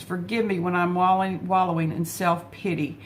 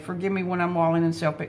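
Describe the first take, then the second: First: Said in the usual way. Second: Fast repeat of the line to herself; rereading mother's prayer quickly for herself. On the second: Shown as a demonstration. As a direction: rush the line as a reminder to herself. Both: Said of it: "I need to just hear this today".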